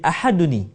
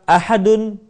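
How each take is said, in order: First: The word ends in 'n' with an added 'i' vowel. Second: The word ends in 'n' with no added vowel.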